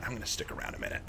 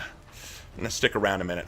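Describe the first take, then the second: First: A soft secretive whisper; hushed whisper, much softer; whispered aside. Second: Said in the usual way. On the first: Acted. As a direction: whisper it under your breath. Repeats line, second whispered.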